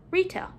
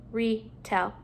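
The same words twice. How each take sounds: First: Said in the usual way. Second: "retell" split after the prefix; parts apart. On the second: Shown as a demonstration. Teacher putting a prefix at the beginning, parts apart. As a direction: pause between "re" and "tell". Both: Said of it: "putting a prefix at the beginning".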